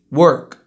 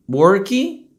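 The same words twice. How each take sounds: First: Short, low "work" with a clean k; true English pronunciation. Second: "work" with rising extra vowel, "worky"; Brazilian pronunciation. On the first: Teacher's correct take, "work" with no final vowel. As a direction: finish "work" firmly on the consonant. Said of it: "depois eu vou falar como se é". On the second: Teacher mimicking Brazilians, "work" as "worky". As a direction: lift "work" into a final "ee". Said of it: "vou falar como brasileiro falaria". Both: Shown as a demonstration.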